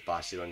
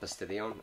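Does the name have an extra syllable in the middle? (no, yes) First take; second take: no; yes. First: The name has no extra middle syllable. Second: The name has an extra middle syllable. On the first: The speaker calls it right. "But it is Bastion" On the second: The speaker calls it wrong. "I used to call it Bastidion"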